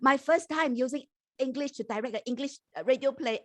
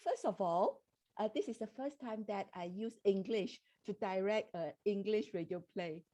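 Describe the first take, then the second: First: Louder, projected into the mic; speaking up. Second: Softly, under usual speaking volume; soft-spoken. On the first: Director repeating the answer after being told to speak louder, speaking up. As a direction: speak up so the listeners can hear. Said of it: "Could you speak a bit louder". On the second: Director answering the host's question about challenges, soft-spoken. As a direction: speak softly, too quiet for the mic. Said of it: "you're a bit soft". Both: Real, not acted.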